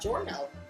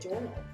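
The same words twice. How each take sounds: First: The last syllable is a full 'nal'. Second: The last syllable is weak and reduced. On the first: The speaker calls it wrong. "au lieu de dire nal, parce qu'on ne dirait pas journal" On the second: The speaker calls it right. "on dirait journal"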